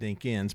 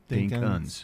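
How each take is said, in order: First: The second syllable has a clear 'kins' vowel. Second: The second syllable has a reduced 'uns' vowel. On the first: The speaker calls it right. "it's actually Dinkins" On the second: The speaker calls it wrong. "I do a capital D-I-N-K, and then dash U-N-S"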